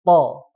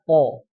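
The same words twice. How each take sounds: First: The vowel is said with open, unrounded lips. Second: The vowel is said with rounded lips. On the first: The speaker calls it right. "Tapi cukup to" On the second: The speaker calls it wrong. "tidak to, tidak membulat"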